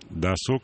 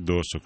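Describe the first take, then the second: First: The stress is on the second syllable. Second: The stress is on the first syllable. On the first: The speaker calls it right. "спасибо за правильное ударение" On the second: The speaker calls it wrong. "а не досуг"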